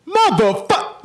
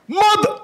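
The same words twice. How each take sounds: First: "Motherfuck" said much higher; high-pitched try. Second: "Mother" said much higher still; "Mother" up in a squeak; high-pitched try. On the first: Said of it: "practice how to say motherfucker the right way". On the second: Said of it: "It's gotta be high pitched". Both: Shown as a demonstration.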